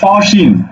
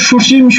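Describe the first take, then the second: First: The first vowel is an open 'aw' sound. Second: The first vowel is a closed rounded 'o'. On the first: The speaker calls it right. "বলো না বলো কি সসীম" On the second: The speaker calls it wrong. "তুমি কি বলো সুসীম"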